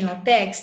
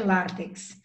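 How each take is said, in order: First: The stress is on the second syllable. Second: The stress is on the first syllable. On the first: The speaker calls it wrong. "Tem também latex?" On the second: The speaker calls it right. "pela regra é látex... paroxítona também"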